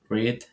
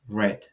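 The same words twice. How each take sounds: First: The word is said with a long ee vowel. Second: The word is said with a short e vowel. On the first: It is the present-tense base form. "which is the base form in the present" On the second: It is the past tense or past participle. "which is in past simple or in past in past participle"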